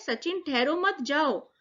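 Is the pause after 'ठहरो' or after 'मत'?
after मत. The pause comes after 'मत'.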